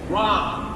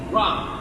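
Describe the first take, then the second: First: The vowel does not sound like pop's vowel. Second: The vowel sounds like the vowel in pop. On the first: It names the old man. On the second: It names the maid.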